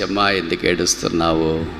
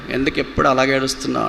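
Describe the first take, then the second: First: Unhurried, caring question; tender consoling. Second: Quick, higher-pitched mock telling-off; impatient scolding. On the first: Acted. Loved one coming close to someone crying, tender consoling. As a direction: ask it like a comforting loved one. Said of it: "చెప్పే ఆప్తులు ఎవరుంటారు". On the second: Parent to a crying daughter, impatient scolding. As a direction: rattle it off like a fed-up parent. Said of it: "ఇలా తిట్టేవాళ్ళే ఉంటారు".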